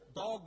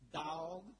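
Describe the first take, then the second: First: It is said plainly in a standard accent. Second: It is drawled in a Southern accent, stretched longer.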